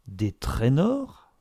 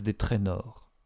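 First: Slow echo soaring up into a question; drawn-out, incredulous rising question; astonished exclamation. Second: Said in the usual way. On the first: A narrator's reading. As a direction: repeat it in disbelief, stretching the words. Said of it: "s'écria Mrs Jack Stepney".

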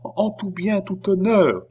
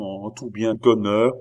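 First: High-pitched, anxious echo; murmured agreement. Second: Said in the usual way. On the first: A narrator's reading. Oliva confirms all was honourable, murmuring. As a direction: echo him in a much higher voice. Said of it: "murmura Oliva".

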